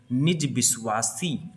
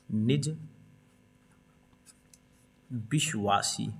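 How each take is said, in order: First: Said in the usual way. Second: निज, long pause, then a drawn-out विश्वासी; softer, slow विश्वासी after a long gap; slow dictation. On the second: Shown as a demonstration. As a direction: dictate निज विश्वासी word by word while writing. Dictating while writing it down.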